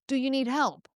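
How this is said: It sounds warm and caring.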